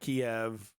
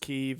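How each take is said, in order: First: The city name is said in the Kiev form. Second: The city name is said in the Kyiv form. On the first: This is an outdated name no longer used. The speaker calls it wrong. "It's not Kiev" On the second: This is the name currently in use. The speaker calls it right. "everyone knows it's Kyiv now"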